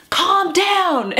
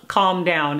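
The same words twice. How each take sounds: First: High-pitched, exasperated mock shout; mock yell. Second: Said in the usual way. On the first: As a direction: imitate someone yelling in a most uncalm voice. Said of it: "someone who has yelled". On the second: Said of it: "I have yelled".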